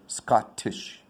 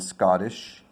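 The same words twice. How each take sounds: First: The T is a clear, crisp T. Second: The T is a soft D-like flap. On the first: The speaker calls it wrong. "I won't say Scottish" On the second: The speaker calls it right. "which is also the reduction, the T reduction there"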